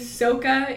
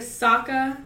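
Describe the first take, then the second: First: The name is said with the movie's vowel sounds. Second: The name is said with the cartoon's vowel sounds. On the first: The speaker calls it wrong. "every time they pronounce something wrong" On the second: The speaker calls it right. "instead of"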